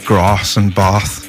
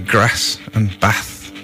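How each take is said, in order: First: It is said in a non-Birmingham accent. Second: It is said in a Birmingham accent. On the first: "instead of grass and bath" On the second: "We also say grass and bath"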